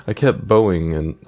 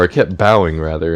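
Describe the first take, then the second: First: "bowing" said as BOH-ing; "bowing" with a long o in the first syllable; mispronounced "bowing". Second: "bowing" said as BOW-ing, rhyming with plowing, louder; louder "bowing" with an ow vowel, as self-correction; corrected "bowing". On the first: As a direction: say "bowing" with an oh, like a bow and arrow. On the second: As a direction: correct yourself, "bowing" with an ow as in cow. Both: Real, not acted. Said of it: "or I kept bowing rather".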